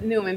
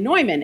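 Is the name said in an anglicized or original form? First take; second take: anglicized; original. First: The name is said in an anglicized local way. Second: The name is said in its original, non-English way. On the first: This is the local way of saying the name. "I do pronounce it Newman because I'm from Philadelphia" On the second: This is the technically correct way of saying the name. "technically probably, you're correct, and Neumann"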